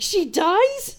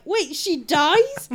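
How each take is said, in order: First: High, louder incredulous question; shocked disbelief. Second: Slow, high, loud incredulous question; shocked disbelief. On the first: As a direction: blurt it like all-caps text. Retold shocked message, second take. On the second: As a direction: stretch it out in disbelief. Shocked message, first take. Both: Retold or imitated.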